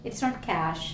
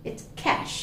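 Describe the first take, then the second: First: "cash" with an open Malayali a; wrong vowel. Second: "cash" with a clear æ; correct vowel. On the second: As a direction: model the right "cash". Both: Shown as a demonstration.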